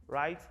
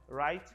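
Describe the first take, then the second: No difference in how they are said.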